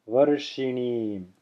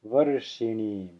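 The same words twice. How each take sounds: First: The first vowel is very short, like uh. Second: The first vowel is very short, like uh.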